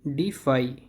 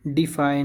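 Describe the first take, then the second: First: डिफाई ending in a clean "fai"; correct pronunciation. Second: डिफाई ending in a loose "fa-e"; wrong pronunciation. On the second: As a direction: say "dee-FAA-eh" for डिफाई. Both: Shown as a demonstration. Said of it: "डिफाई नहीं".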